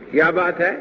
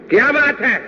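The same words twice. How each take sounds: First: It is said as a curious question. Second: It is said angrily, like a scolding.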